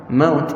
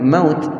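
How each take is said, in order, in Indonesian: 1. Vokal sebelum t akhir itu pendek. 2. Vokal sebelum t akhir itu pendek.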